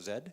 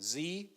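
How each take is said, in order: First: The letter is said the non-American way, 'zed'. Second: The letter is said the American way, 'zee'.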